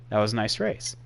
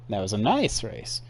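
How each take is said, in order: First: Said in the usual way. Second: "nice" lifted in pitch, then falling; little inflection on "nice". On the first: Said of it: "that one had a little inflection". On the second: Retold or imitated. Streamer reading Ross's tweet, "nice" given a small lilt. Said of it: "that one had a little inflection right there".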